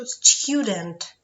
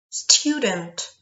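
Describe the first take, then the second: First: Student repeated as a hint, stressed; hint word. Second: Student said loud with a clear you sound; teacher model word. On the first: Teacher hinting the word to pupils, emphatic. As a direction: give Student again as a hint. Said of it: "підсказочку". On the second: Teacher modelling English for pupils, crisp and loud. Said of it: "Ю у відкритому складі має звук Ю". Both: Shown as a demonstration.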